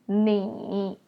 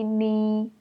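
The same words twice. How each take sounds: First: The syllable is said with a dipping tone. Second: The syllable is said without the dipping tone.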